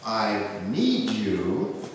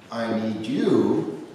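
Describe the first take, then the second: First: The stress is on need. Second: The stress is on you.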